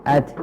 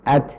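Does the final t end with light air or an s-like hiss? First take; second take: light air; light air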